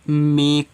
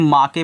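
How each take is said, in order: First: The final e is silent. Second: The final e is sounded as a vowel. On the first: The speaker calls it right. "ई का pronunciation नहीं किया है तो ये मेक है" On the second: The speaker calls it wrong. "यही होती है बच्चों जो गलती पढ़ते हैं"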